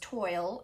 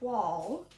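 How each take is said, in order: First: The word rhymes with toil. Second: The word rhymes with fall. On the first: The speaker calls it wrong. "I thought it was like toil" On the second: The speaker calls it right. "it's twall, which rhymes with fall"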